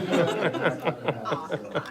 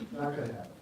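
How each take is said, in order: First: Put-on joking Brooklyn accent, laughing; brief playful Brooklyn accent, louder. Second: Said in the usual way. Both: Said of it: "so I'm just gonna speak Brooklyn".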